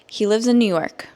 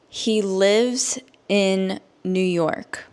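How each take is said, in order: First: The sentence is spoken at normal speed. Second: The sentence is spoken slowly. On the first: "at a normal native English speaker speed" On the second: "I will say it slowly so that you can understand"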